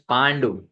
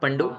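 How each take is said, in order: First: The a vowel is long. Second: The a vowel is short. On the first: The speaker calls it right. "when you have A and upper bar, it is pronounced as" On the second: The speaker calls it wrong. "not Pandu"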